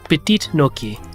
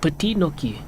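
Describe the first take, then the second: First: The final T of the first word is pronounced. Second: The final T of the first word is silent. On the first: The speaker calls it wrong. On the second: The speaker calls it right.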